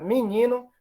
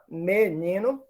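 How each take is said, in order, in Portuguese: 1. A primeira vogal é um som de i oral. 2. A primeira vogal é um som de e. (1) "que ocorra um I" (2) "que ocorra um E"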